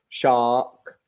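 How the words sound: The R is dropped, leaving an open vowel. "in British English, we leave it open"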